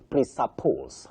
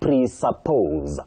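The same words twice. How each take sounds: First: The middle consonant is an unvoiced s sound. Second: The middle consonant is a voiced z sound. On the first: The speaker calls it wrong. "Many people say" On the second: The speaker calls it right. "that S takes the voiced sound Z"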